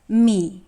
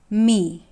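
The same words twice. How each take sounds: Both takes have the same delivery.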